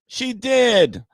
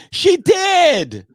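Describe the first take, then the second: First: Said in the usual way. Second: Much higher, louder shouted "She did"; triumphant shout. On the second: Real, not acted. Mock triumph over a heckler.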